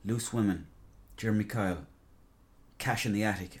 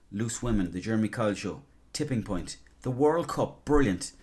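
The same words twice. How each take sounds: First: Disappointed. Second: Pleased. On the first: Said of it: "now it's just like". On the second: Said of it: "before it was like". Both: Retold or imitated.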